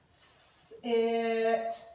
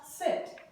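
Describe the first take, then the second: First: The word is broken into separate sounds. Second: The word is said quickly as one unit. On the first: "Let's try tapping out sit" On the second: "Say it fast"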